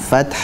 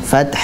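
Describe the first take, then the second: The two takes are said the same way.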